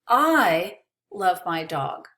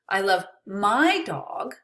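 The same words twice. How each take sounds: First: The word I carries the emphasis. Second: The word my carries the emphasis. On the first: Someone else may not love the dog. "Maybe you don't love my dog, but I do" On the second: Another person's dog is not loved as much. "Maybe I don't love your dog"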